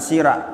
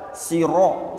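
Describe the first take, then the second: First: The r is light, with an a-like vowel. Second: The r is heavy, with an o-like vowel. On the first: The speaker calls it wrong. "bukan sira" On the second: The speaker calls it right. "Ro tebal"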